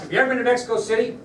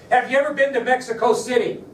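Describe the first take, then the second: First: Fast, higher, pushy question; agent pressing hard. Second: Louder, higher pushy question; agent pressing hard. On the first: Agent repeats his question to Oswald, fast and pushy. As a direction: rattle it off at him. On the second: Nervous agent pressing Oswald, loud and high. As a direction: fire the question at him. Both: Retold or imitated.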